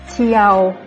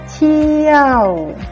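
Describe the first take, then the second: First: The word is said on a level middle pitch. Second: The word is said with a falling pitch. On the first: "Le ton normal"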